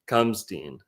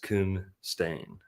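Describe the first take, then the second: First: The last syllable sounds like 'stine'. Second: The last syllable sounds like 'stain'. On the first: The speaker calls it wrong. "I know you guys want to say Kumstein" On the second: The speaker calls it right. "but it's Kumstain"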